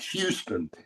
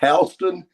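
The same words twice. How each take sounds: First: It uses the standard, non-local pronunciation. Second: It uses the local regional pronunciation. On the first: The speaker calls it wrong. "it's not, not Houston" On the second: The speaker calls it right. "It's Houston and Cairo"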